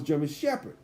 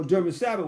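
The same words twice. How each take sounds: First: Said in the usual way. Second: "Sabbath" for shepherd, s instead of sh; mispronounced shepherd. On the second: Shown as a demonstration. Preacher explaining the family's word, shepherd mispronounced as "Sabbath". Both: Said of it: "German Sabbath was German Shepherd".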